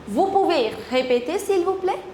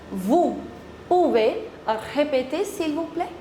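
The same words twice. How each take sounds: First: The sentence is said at a normal, quicker pace. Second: The sentence is said slowly and carefully.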